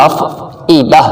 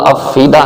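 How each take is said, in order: First: افئدہ with a clear hamza catch before the i sound; correct pronunciation. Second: افیدہ with a plain long ee and no hamza break; wrong pronunciation. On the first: Teacher gives students the right form, hamza heard in افئدہ. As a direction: break cleanly into ئ in افئدہ. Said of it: "ای کی آواز آنی چاہیے". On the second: Teacher shows students the common mistake, plain ee in افیدہ. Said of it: "افیدہ نہیں کرنا". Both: Shown as a demonstration.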